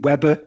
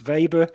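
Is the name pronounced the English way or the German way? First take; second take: English; German. First: The name is said with an English pronunciation. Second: The name is said with a German pronunciation. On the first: The speaker calls it wrong. "as we used to say when I was studying" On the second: The speaker calls it right. "the German pronunciation"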